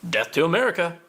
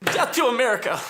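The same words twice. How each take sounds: First: Tame version of a war cry; a token, toned-down rallying cry; half-hearted slogan. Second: High, fervent rallying cry; fanatical slogan. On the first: Repeats slogan after suburban confession. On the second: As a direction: throw it out as a zealot's war cry. Militant bursts out with slogan. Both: Acted.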